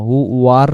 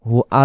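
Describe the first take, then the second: First: A w sound links 'hu' and 'ar'. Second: There is no w sound before 'ar'. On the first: The speaker calls it right. "হু ওয়ার হবে" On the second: The speaker calls it wrong. "হু আর হবে না"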